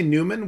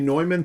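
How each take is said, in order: First: The name is said in an English way. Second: The name is said in a German way. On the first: "it's fine to say Newman" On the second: "it's better to say Neumann to avoid confusion"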